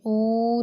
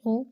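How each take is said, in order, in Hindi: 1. स्वर को खींचकर लंबा u बनाया गया है। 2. स्वर एक छोटा, कसा हुआ u है। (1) "ऊ नहीं करना, यानी उसे खींचना नहीं है" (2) "हमज़ा पेश उ आपने पढ़ना है"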